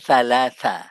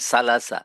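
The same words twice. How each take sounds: First: The first sound has the tongue between the teeth. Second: The first sound has the tongue kept inside the mouth. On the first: The speaker calls it right. "দেখো, থা, থা" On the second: The speaker calls it wrong. "আমরা বলি সালাসা, জিভা ভিতরে রেখে বলি"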